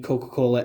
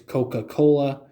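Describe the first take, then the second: First: The word is said in a casual, reduced way. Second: The word is said carefully, sound by sound. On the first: "the way I say Coca-Cola" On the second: "pronounce it phonetically"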